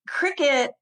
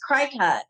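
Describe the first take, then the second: First: The second syllable sounds like 'kit'. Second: The second syllable sounds like 'cute'. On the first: The speaker calls it right. "cricket is spelled C R I C U T" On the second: The speaker calls it wrong. "for years, I was pronouncing this cricut"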